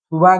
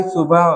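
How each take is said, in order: First: सुबह as "suba", ending in an open vowel; dropped h. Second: Said in the usual way. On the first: Shown as a demonstration. Teacher showing a wrong ending, "suba" for सुबह. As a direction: lose the final "h" of सुबह. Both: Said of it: "नहीं".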